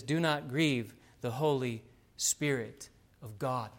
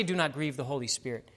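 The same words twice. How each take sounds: First: Slow, separated phrases, landing on "of God"; measured and weighty, "Holy ... Spirit ... of God" set apart; emphatic full quote. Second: Said in the usual way. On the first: Shown as a demonstration. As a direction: spell out "the Holy Spirit of God" with deliberate pauses. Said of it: "It says". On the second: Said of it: "It doesn't say".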